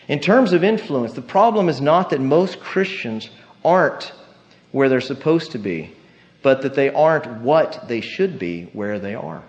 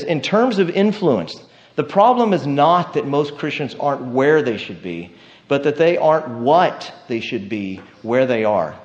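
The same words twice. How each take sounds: First: Slower, more deliberate second reading; slower repeat. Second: Said in the usual way. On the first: Shown as a demonstration. Preacher repeating a confusing quote for the church, slowed down. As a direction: lay it out again slowly so it sinks in. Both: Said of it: "I'll repeat it again".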